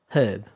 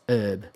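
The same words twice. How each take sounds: First: The word begins with an audible H sound. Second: The word begins without any H sound. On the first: "We also tend to pronounce the H in herb" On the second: "but American says herb"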